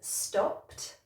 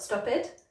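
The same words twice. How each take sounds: First: The ending is a short T sound. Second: The ending adds an extra syllable. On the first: The speaker calls it right. "it should be a T sound" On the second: The speaker calls it wrong. "not an extra syllable"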